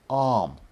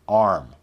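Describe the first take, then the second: First: British accent, with no r sound. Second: American accent, with the r sound. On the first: "in a British accent, it would be something like" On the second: "We want the standard American sound"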